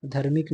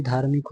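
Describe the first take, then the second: First: धार्मिक said with short a, as dharmik; wrong vowel. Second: धार्मिक with long aa; correct vowel. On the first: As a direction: say dhar-mik for धार्मिक. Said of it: "नहीं". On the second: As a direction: say dhaar-mik for धार्मिक. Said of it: "होता है ऐसे शुद्ध रूप". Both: Shown as a demonstration.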